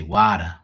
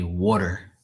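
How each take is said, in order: First: "water" as WAH-tuh, r dropped; broad "wah-tuh" for "water"; r-less water. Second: "water" with the r sounded at the end; "water" as WAW-ter, r pronounced; first way of saying water. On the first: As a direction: say "water" with an open ah and no final r. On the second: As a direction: say "water" with a full final er. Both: Shown as a demonstration. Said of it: "some people say water".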